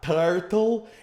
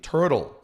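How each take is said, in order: First: It is said with a Brazilian Portuguese accent. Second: It is said with an American English accent. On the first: The speaker calls it wrong. "It's not turtle" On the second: The speaker calls it right. "they say it turtle"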